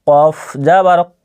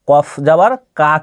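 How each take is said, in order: First: The final vowel is a rounded 'o'-like sound. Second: The final vowel is an open 'a' sound. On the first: The speaker calls it right. "এখানে কি বলতে হবে কফ যাবার ক" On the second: The speaker calls it wrong. "কফ যাবার কা কিন্তু নয়"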